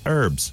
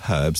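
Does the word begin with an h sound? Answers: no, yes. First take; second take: no; yes. First: The word starts with no h sound. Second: The word starts with an audible h sound. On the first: "they say herbs" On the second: "Americans do pronounce their H's, don't they? But they don't say herbs"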